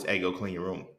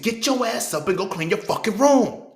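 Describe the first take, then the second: First: Even, unhurried ask to clean up; calm request. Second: Much higher, louder and slow angry bark; parent yelling. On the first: Parent calmly asks child to clean room, mild and even. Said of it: "when you tell me in a calm voice". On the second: Parent yells at child to clean the room, furious shout. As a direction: blow up like a fed-up parent. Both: Retold or imitated.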